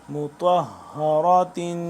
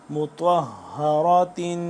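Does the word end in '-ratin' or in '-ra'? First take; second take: -ratin; -ratin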